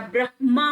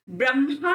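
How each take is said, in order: First: ब्रह्मा with h before m; correct pronunciation. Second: ब्रह्मा with m before h; wrong pronunciation. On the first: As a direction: say ब्रह्मा as brah-maa. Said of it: "ब्रह्मा होता है". (ब्रह्मा में पहले ह, फिर म) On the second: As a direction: say ब्रह्मा as bram-haa. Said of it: "ब्रह्मा नहीं होता". (ब्रह्मा को 'ब्रम्हा' जैसा) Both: Shown as a demonstration.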